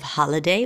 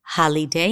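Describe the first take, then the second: First: The middle vowel is reduced to a schwa. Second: The middle vowel is a full, clear vowel. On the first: The speaker calls it right. "instead of" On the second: The speaker calls it wrong. "I is going to be an E"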